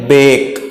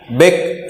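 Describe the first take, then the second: First: बेक with a long ay vowel; correct pronunciation. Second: बेक with a short, cut-off vowel; wrong pronunciation. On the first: Teacher gives students the right reading, long-vowel बेक. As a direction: draw out the ay in बेक. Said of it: "बक नहीं बोलते". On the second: Teacher shows students what not to say, mispronounced बेक. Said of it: "नहीं बोलते". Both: Shown as a demonstration.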